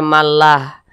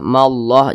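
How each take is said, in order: First: The L in Allah is light and thin. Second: The L in Allah is heavy and thick. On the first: The speaker calls it wrong. "jangan dibaca mallah" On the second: The speaker calls it right. "dibaca tebal"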